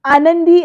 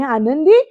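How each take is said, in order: First: Calling her name out loud and high; shocked shout. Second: Her name asked with a rising, puzzled lift; disbelieving question as everyone stares; stunned question. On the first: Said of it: "Yugandhar एकदम ओरडतो". (धक्क्याने मोठ्याने हाक मारणे) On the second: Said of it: "असा सगळ्यांना प्रश्न पडतो". (आश्चर्याने विचारलेले नाव) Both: Acted.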